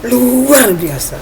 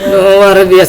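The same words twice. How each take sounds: First: It is said with lively, high energy. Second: It is said limply, with very low energy.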